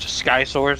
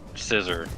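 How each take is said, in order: First: The name does not sound like 'scissor'. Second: The name sounds like the word 'scissor'. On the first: This is how the speaker used to say it. The speaker calls it wrong. "I specifically said it that way" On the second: This is the official way to say it. The speaker calls it right. "now I know it's like Scissor"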